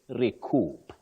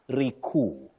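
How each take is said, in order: First: The final P sound is pronounced. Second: The final P sound is silent. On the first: The speaker calls it right. "You say recoup. The P is pronounced" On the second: The speaker calls it wrong. "they also get confused and then they say recoup, which is inaccurate"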